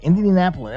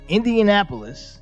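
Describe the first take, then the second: First: The word is said at a quick pace. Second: The word is said at a slower pace.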